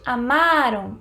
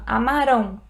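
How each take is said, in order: First: The stress is on the second syllable. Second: The stress is on the last syllable. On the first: The action happened in the past. "É a penúltima, o ma" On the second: The action will happen in the future. "a sílaba tônica é a última"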